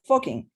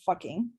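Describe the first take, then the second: First: The word has a Spanish pronunciation, with an o vowel. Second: The word has a plain English pronunciation. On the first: The speaker calls it right. "you'd say Foking" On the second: The speaker calls it wrong. "You wouldn't say fucking"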